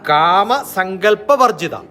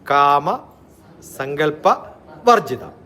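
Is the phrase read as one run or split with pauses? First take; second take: one run; split. First: The compound is read in one unbroken run. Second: The compound is split with pauses between parts.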